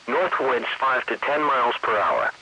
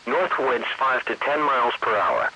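The two takes are said the same way.

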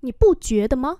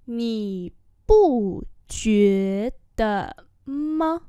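First: Said in the usual way. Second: Nǐ bu jue de ma syllable by syllable; slow demonstration. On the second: Shown as a demonstration. Teacher repeats a question for learners, slowly. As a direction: draw out Nǐ bu jue de ma.

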